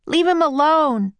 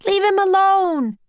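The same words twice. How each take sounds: First: Put-on raised boy's protesting yell. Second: High, loud protesting yell. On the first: Jack defending the octopus from the captain, yelling. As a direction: yell it firmly, less high than a girl's shriek. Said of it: "yelled Jack". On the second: Annie defending the octopus from sailors, high yell. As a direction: yell it high in a young girl's voice. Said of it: "yelled Annie". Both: A narrator's reading.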